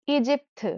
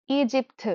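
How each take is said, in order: Both takes have the same delivery.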